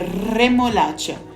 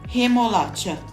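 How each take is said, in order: First: The first R is a strong trill. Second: The first R is soft, without trilling. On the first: The speaker calls it right. "certo, é remolacha, vibrando R" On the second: The speaker calls it wrong. "e não remolacha, sem vibrar como no português"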